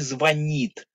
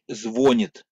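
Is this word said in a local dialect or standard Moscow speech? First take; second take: Moscow standard; local dialect. First: It is said in standard Moscow pronunciation. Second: It is said in the local village dialect. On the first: This is the accepted city norm. The speaker calls it right. "А в Москве это у них говорят" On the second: The speaker is from the same home region. The speaker calls it wrong. "у нас в Боброво говорят"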